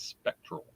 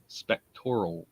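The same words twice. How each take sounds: First: Spectral said in two syllables, SPEC-tral, the standard way. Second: Spectoral said in four syllables, spec-TOR-al, with a Baltimore accent. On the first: Shown as a demonstration. Host contrasts his own spectoral with standard spectral. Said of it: "instead of spectral". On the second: Real, not acted. Host greets Debbie from Spectoral Research, Baltimore pronunciation. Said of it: "my Baltimore accent says spectoral".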